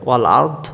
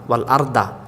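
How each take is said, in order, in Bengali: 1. এটি একটি খালি 'd' ধ্বনি দিয়ে শেষ হয়। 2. 'd'-এর পরে একটি অতিরিক্ত 'a' স্বরধ্বনি আসে।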